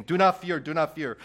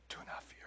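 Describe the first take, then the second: First: "Do not fear" called out loud and high; proclaimed do not fear. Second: "Do not fear" said in an unvoiced whisper. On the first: Pastor proclaiming Jesus's command, loud. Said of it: "what is he saying?". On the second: Pastor quoting Jesus's comfort, whispered. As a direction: breathe "Do not fear" softly. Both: Shown as a demonstration.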